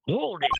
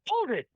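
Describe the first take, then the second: First: It is said with less enthusiasm. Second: It is said with great enthusiasm.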